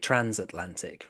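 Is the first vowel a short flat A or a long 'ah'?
short A. The first vowel is a short flat A.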